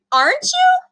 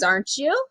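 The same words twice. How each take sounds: First: Put-on much higher, pleading child voice; hurt boy begging his friend; pleading echo. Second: Said in the usual way. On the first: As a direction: ask it again, desperate and high. Boy echoes plea much higher.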